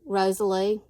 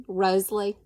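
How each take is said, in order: First: The name is said as Rosalie. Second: The name is said as Rosalie.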